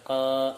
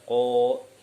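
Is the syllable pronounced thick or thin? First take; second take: thin; thick. First: The vowel is light and bright, like a. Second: The vowel is heavy and dark, like o. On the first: The speaker calls it wrong. "tidak dibaca ka" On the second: The speaker calls it right. "jadi dibaca ko"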